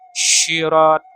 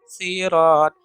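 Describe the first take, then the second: First: The word begins with an sh sound. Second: The word begins with a plain s sound. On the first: "huruf sya atau huruf shin" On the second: "sod dibaca dengan huruf sa"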